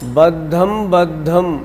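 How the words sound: The break comes after the 'm' sound. The speaker calls it wrong. "इसको आप ऐसे मत पढ़िएगा"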